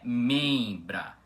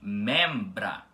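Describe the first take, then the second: First: The E is nasal, blending into the M. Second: The E is open, with a held M. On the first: The speaker calls it wrong. "a pronúncia correta dessa palavra não é membra" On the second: The speaker calls it right. "e sim membra"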